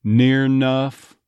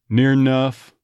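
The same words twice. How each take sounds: First: Near enough, slow, with the first syllable of enough dropped to near nuff; clipped Texas phrase. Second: Near enough with a schwa, near nuff; Texas schwa. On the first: An accent coach slowly demoing near enough with the first syllable dropped. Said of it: "drop that first syllable completely". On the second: An accent coach demoing near enough with a schwa. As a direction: near enough with a relaxed uh vowel. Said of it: "uh sound in enough". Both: Shown as a demonstration.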